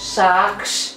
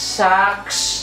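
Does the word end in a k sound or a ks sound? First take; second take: ks; ks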